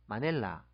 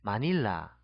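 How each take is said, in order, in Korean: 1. 두 번째 모음은 'e'처럼 발음해요. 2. 두 번째 모음은 'ee'처럼 발음해요.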